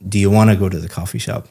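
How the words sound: The words run together in one continuous flow.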